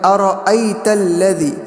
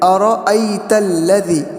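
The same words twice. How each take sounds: Both takes have the same delivery.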